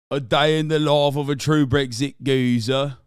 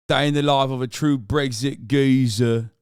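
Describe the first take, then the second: First: Loud hammed-up British geezer accent; mock British geezer. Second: Mock British. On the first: Streamer announcing a Brexit geezer vlog in a loud mock British accent.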